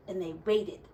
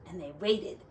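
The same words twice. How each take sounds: The two takes are said the same way.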